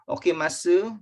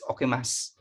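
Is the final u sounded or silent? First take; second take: sounded; silent. First: The final u is clearly sounded. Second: The final u is silent. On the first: The speaker calls it wrong. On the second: The speaker calls it right. "it's okimas"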